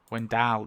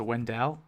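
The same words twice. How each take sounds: First: "Wendell" said as wen-DAHL; second syllable DAL. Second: "Wendell" ending in a clear "dell"; second syllable DELL. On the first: Vlogger settling on a name, "Wendell" pronounced wen-DAHL. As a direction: open the last vowel of "Wendell" to an A, "dahl". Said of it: "No, it's Dal". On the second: Vlogger unsure of a name, trying "Wendell" as wen-DELL. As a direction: say "Wendell" with an E, as in bell, in the last syllable. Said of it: "Is it Wendell or Wendell?". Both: Shown as a demonstration.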